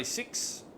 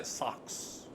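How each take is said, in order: First: Said in the usual way. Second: Kiwi vowel turning "six" into "sucks"; mock Kiwi "sucks" for six; New Zealand accent. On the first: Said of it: "We'll say six". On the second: Shown as a demonstration. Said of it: "they'll say sucks".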